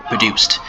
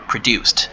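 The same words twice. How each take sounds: First: Produced in full voice, ending in a clear T sound; pronouncing produced. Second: Produced whispered, ending in a crisp T sound; pronouncing produced. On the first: Teacher repeats produced for students, clear T ending. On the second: Teacher models produced for students, whispered T ending. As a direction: say produced with the final D as a T. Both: Shown as a demonstration. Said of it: "The D at the end is pronounced as T".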